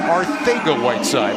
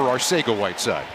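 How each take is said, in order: First: The C is said like a th sound. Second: The C is said like an s sound. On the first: This is how the player prefers it. "that C is pronounced like a T H. He would prefer" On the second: This is an acceptable compromise. "if we just settle for"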